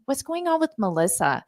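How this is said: It is said in a worried, concerned tone. Something may be wrong with the person. "So it sounded more like there's concern"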